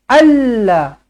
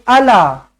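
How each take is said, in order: First: The L sound is doubled and held longer. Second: The L sound is short and single. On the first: The speaker calls it right. "Dekat huruf lam ada tanda sabdu" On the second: The speaker calls it wrong. "Tak boleh ala"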